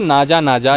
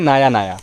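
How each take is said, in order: First: The middle consonant is a j sound. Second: The middle consonant is a y sound. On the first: This is the English pronunciation. "अंग्रेज़ी जो ब्रिटेन में बोली जा जाती है या जो भारत में बोली जा जाती है" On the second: This is the original Latin pronunciation. "Latin भाषा में जो उसका प्रोनाउंसिएशन है"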